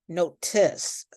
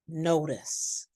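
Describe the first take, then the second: First: The T is a sharp, popped T sound. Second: The T is a soft, light D sound. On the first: The speaker calls it wrong. "we do not say" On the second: The speaker calls it right. "light D sound"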